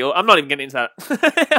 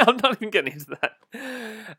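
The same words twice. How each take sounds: First: Said in the usual way. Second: Slower, laughing through the words; chuckling, half-amused repeat. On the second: Real, not acted.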